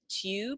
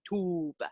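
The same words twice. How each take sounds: First: A y sound comes before the oo vowel. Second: No y sound comes before the oo vowel. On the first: "instead of tube" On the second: "Drop the Y sound before the long U"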